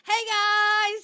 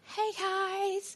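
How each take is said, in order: First: It is said loudly and confidently. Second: It is said quietly and timidly.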